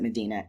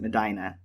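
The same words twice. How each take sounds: First: It is said like the holy city's name. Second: It is said like the Ohio city's name. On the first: "as a religious history buff, I want to pronounce it Medina" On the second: "As an Ohioan, I want to pronounce it Medina"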